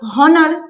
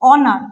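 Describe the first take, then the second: First: The word begins with an audible h sound. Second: The word begins directly with a vowel sound. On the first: The speaker calls it wrong. "উচ্চারণটা কি হওয়া দরকার হনার, কিন্তু তা তো হচ্ছে না" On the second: The speaker calls it right. "হচ্ছে অনার"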